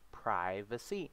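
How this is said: It is said with an American pronunciation. "but we would say invasion of privacy"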